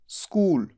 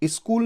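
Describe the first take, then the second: First: The word starts directly with an s. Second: A vowel sound comes before the s. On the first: The speaker calls it right. "आधे स से शुरू" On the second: The speaker calls it wrong. "स्कूल नहीं"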